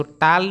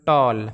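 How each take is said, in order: First: टाल with open "aa" like taal; wrong flat aa. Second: टॉल with rounded "aw" as in tall; correct aw sound. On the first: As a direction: say टाल with a plain आ vowel. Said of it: "इसको टाल नहीं पढ़ते". (टाल को खुले आ से बोलें) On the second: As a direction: say टॉल with an ऑ vowel. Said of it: "इसको बोलते हैं टॉल". (टॉल को गोल ऑ से बोलें) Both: Shown as a demonstration.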